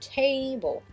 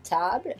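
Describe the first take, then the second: First: It is said with an English pronunciation. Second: It is said with a French pronunciation. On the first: "et eux, c'est" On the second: "nous, c'est un son A"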